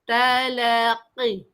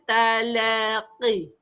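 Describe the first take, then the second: No difference in how they are said.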